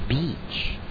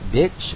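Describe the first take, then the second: First: The vowel is long. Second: The vowel is short. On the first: The speaker calls it right. "It should have a long E sound" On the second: The speaker calls it wrong. "Don't say bitch"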